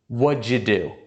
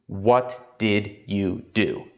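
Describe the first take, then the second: First: The first words blend into one quick sound. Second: Each word is said fully and separately. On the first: "I put them together and I say" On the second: "I never say"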